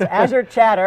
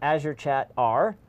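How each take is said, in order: First: The ending is said as an 'er' sound. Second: The ending is said as the letter R. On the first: The speaker calls it right. "It's Azure Chatter" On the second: The speaker calls it wrong. "I pronounced it wrong"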